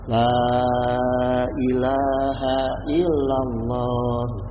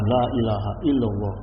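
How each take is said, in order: First: The opening 'La' vowel is drawn out long. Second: The opening 'La' vowel is said short. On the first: The speaker calls it right. "la-nya dipanjangkan" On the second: The speaker calls it wrong.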